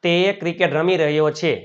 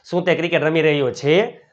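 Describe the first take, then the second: First: Said in the usual way. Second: Brisk question, rising at the end on "છે"; question tune. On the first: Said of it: "એક જ વાક્ય ઉપરથી હકાર". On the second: Shown as a demonstration. Teacher showing students the question form, rising questioning tune on "છે". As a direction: ask it quickly, lifting "છે" at the close. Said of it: "નકાર, પ્રશ્નાર્થ".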